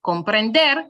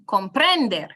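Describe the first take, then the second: First: Comprender stressed correctly on final DER; stress on last syllable. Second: Comprender misstressed on PREN; wrongly stressed middle syllable. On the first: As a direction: put the weight on DER in comprender. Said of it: "stress on the very last one". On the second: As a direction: punch PREN in comprender, letting DER drop. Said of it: "and not". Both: Shown as a demonstration.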